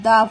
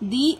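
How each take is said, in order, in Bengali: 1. শব্দটি ছোট 'uh' স্বরধ্বনি দিয়ে বলা হয়। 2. শব্দটি লম্বা 'ee' স্বরধ্বনি দিয়ে বলা হয়। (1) "কনসোনেন্টের আগে টি এইচ ই বসলে সেটা প্রোনাউন্সিয়েশন হবে দা" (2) "ভাওয়েলের আগে টি এইচ ই বসলে সেটা হবে দি"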